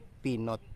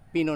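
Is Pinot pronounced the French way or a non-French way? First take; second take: non-French; French. First: It is pronounced a non-French way. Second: It is pronounced the French way. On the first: The speaker calls it wrong. "hindi Pinot kasi French word yan eh" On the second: The speaker calls it right. "Yan ang pronunciation niyan"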